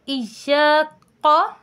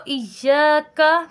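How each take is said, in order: First: "इय्याका" ending in a thick back qo instead of kaa; wrong heavy qaf. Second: First "इय्याका" slowly chanted with a light k and open kaa; correct thin kaf. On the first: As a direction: show the mistake: slow "इय्याका" with full, rounded q. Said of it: "नहीं पढ़ेंगे क्योंकि ये". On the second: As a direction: recite "इय्याका" with a thin front k. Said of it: "अब हम इसको इय्याका की बजाय". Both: Shown as a demonstration.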